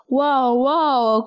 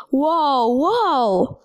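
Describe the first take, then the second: First: Understated growl, barely roughened; mild growl. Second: Moaned cry of dismay, falling away. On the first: The angry spoon after the crash, mildly growling. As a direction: grumble it lightly, as a grumpy spoon. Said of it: "growled the spoon". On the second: The dish lands after being thrown, moaning. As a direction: let each word slide down in a moan. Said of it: "moaned the dish". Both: A narrator's reading.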